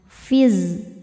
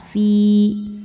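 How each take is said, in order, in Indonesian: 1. Vokalnya pendek, menyambung ke bunyi berikutnya. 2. Vokalnya dibaca panjang, dua ketukan. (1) "Fi-nya ini dibaca pendek karena madnya atau pemanjangnya gugur" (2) "Saat berhenti di fi hukumnya adalah mad tabi'i dhahiri... Cara bacanya panjang dua harokat"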